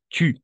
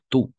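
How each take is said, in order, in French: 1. La voyelle est un 'u' français, arrondi et en avant. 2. La voyelle est un son 'oo' simple, en arrière. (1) "pero este es tu" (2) "entiendo cuando alguien me dice tú"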